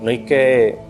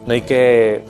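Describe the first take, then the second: No difference in how they are said.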